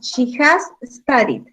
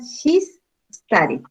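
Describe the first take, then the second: First: The verb 'has' is said as a full word. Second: The verb 'has' is shortened to an s sound.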